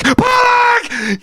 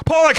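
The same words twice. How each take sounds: First: Very high, drawn-out scream of Pollock; full scream. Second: High, building call of a name; first call of Pollock, urgent and high; rising shout. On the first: Fan screaming as Pollock scores, full scream. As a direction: let Pollock ring out at the top of your voice. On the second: Fan watching Pollock run through, rising shout. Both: Real, not acted. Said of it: "some guy yelling out their window".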